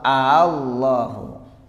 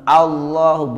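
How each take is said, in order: First: The word starts with a drawn-out opening syllable. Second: The word starts at once with a short opening. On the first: The speaker calls it right. "Tapi al, al, Allahu" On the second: The speaker calls it wrong. "jangan dibaca langsung Allahu, bukan ya"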